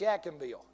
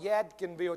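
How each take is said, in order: First: The d sound in the name is dropped. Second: The d sound in the name is pronounced. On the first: The speaker calls it right. "it's Yakinville" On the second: The speaker calls it wrong. "it's not Yadkinville"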